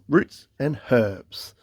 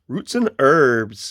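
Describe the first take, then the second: First: The h at the start of herbs is pronounced. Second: The h at the start of herbs is silent. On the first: This is how the speaker normally says it. "I actually pronounced the H" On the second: This is how Americans say it. "as the um, uh, U S A friends would say"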